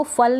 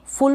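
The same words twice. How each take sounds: First: फल with unrounded 'uh' in place of 'oo'; wrong vowel demo. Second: फुल with short u, not 'uh'; short-u pronunciation. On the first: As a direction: say फल with an 'uh' vowel, rhyming with 'dull'. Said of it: "इसको फल नहीं पढ़ेंगे". (फल में उ की जगह अ का उच्चारण) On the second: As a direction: say फुल with a short rounded 'oo', as in 'book'. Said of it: "फुल पढ़ेंगे". (फुल में छोटे उ का उच्चारण) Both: Shown as a demonstration.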